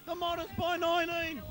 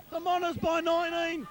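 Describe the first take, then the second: No difference in how they are said.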